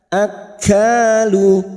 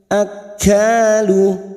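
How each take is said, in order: Both takes have the same delivery.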